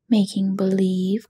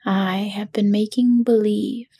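First: Astonished echo, mildly read; Dorothy echoing the wizard in mild surprise; surprised cry. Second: Said in the usual way. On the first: A narrator's reading. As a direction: echo his words back in disbelief. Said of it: "cried Dorothy". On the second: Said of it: "said the little man meekly".

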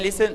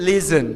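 First: "listen" said the mistaken way; wrong pronunciation. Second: "listen" said carefully as the model; correct pronunciation. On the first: Teacher showing students what to avoid, mispronouncing "listen". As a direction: demonstrate the faulty "listen". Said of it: "ไม่ listen listen". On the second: Teacher correcting students' pronunciation, careful "listen". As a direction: model "listen" slowly and clearly. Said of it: "ออกเสียงดีๆค่ะ". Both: Shown as a demonstration.

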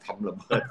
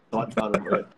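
First: Said in the usual way. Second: Hushed whisper of the touchy word. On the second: Shown as a demonstration. Host whispering the risky word so nobody accuses him. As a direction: drop to a secretive whisper. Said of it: "เดี๋ยวจะหาว่า".

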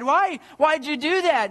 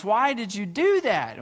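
First: High-pitched, pleading protest; a daughter crying out against her loss; distressed cry. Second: Understated joyful question; mildly jubilant. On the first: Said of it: "she cried". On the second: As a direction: ask it with a touch of delight. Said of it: "this time with jubilance". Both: A narrator's reading.

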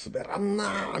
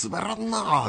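First: Soft drawn-out mock of a flat quip; mock deadpan quote. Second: Soft drawn-out mock of a flat quip; softly ape the awkward line; mock deadpan quote. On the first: Host retelling the girl's party line, soft mock deadpan. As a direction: quietly mimic the girl's lame line. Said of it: "ほんまに言うてましたもんね". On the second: Host retelling the izakaya guy's line, soft mock deadpan. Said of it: "って言いましたからね".

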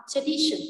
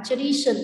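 First: "tradition" with the syllable before "-tion" raised; stress before -tion. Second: Said in the usual way. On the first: Shown as a demonstration. Teacher showing students the rule for -tion words, stressed middle of "tradition". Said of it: "nhấn trọng âm và âm trước nó". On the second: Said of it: "cái đuôi tion này".

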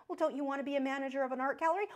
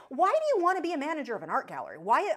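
First: Quick, coaxing, mildly imitated; coaxing adult voice. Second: Louder, fast, exasperated questioning; angry rant. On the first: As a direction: mimic an encouraging parent. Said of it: "we insisted". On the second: Real, not acted. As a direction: push back, fed up and incredulous. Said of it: "I sound like I'm ranting at you".

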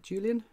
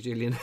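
First: Julian said with a hard English J as in jam, a questioning rise; first guess at the name. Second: Julian said with a Y sound, YOO-lee-an, as an apology; corrected name. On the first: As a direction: say Julian as JOO-lee-an with a J like in jam, asking. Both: Shown as a demonstration. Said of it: "that's not how you pronounce it then".

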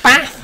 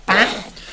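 First: "Bath" high and loud with a short A; "Bath", very high, short A, rising; exaggerated short vowel. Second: "Bath" punched higher with its vowel exaggerated; "Bath" as an exaggerated demo, pitched up; exaggerated pronunciation. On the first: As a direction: punch out "Bath" with the vowel of "cat". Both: Shown as a demonstration. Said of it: "there's always the argument".

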